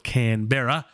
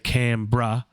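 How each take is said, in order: First: All the syllables are said in full. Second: Some sounds are dropped from the word. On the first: This matches how it is written. "It's spelt Canberra" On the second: This is how locals say it. "we say Canberra"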